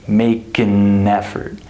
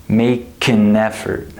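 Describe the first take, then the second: The two takes are said the same way.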